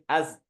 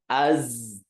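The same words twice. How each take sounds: First: The z sound stops abruptly without hiss. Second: The z sound flows with a sustained hiss. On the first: The speaker calls it wrong. "nggak boleh az" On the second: The speaker calls it right. "tapi az"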